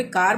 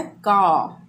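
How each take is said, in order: First: "कार" with the final r sounded; Indian pronunciation. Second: "का" for car, final r dropped; British pronunciation. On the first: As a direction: say "कार" with a clear r at the end. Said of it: "यहाँ पे कार बोलते हैं". ("कार" के अंत में र बोलें) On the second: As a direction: say car as "का", long open vowel. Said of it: "सही उच्चारण होता है का". ("का", अंत का र silent) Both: Shown as a demonstration.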